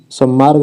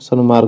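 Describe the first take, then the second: First: सन्मार्ग said "sammaarg", double m; wrong form. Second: सन्मार्ग with a clear n before m; correct form. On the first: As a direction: merge the n of सन्मार्ग into m. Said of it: "सन्मार्ग होता है". (सन्मार्ग को सम्मार्ग जैसा बोलें) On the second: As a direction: say सन्मार्ग as "san-maarg", settling. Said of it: "सन्मार्ग नहीं होता". (सन्मार्ग में न साफ़ बोलें) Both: Shown as a demonstration.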